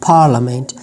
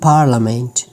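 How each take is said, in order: The two takes are said the same way.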